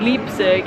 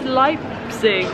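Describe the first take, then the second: First: The first vowel sounds like 'ee'. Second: The first vowel sounds like 'eye'. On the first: The speaker calls it wrong. "not Leipzig, as I was saying" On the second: The speaker calls it right. "It's Leipzig, E before I in German is said as I"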